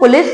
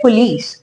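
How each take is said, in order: First: The second syllable has a short vowel. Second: The second syllable has a long ee vowel. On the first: The speaker calls it wrong. "इसे पुलिस नहीं पढ़ते" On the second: The speaker calls it right. "Just like double ई in pronunciation"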